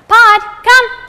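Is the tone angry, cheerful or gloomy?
cheerful. It is said in a cheerful, excited tone.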